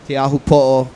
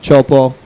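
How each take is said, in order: First: The name is said with all its syllables. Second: The name is shortened to two syllables.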